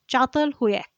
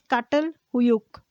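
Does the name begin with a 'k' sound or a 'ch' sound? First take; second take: ch sound; k sound. First: It begins with a ch sound. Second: It begins with a hard k sound. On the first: The speaker calls it right. "but it is pronounced as" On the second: The speaker calls it wrong. "It is spelled as"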